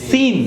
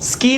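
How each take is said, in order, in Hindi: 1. S ध्वनि के बाद कोई K ध्वनि नहीं आती। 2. S ध्वनि के बाद K ध्वनि आती है।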